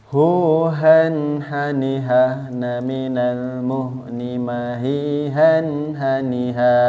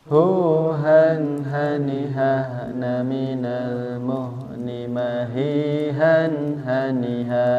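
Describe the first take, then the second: No difference in how they are said.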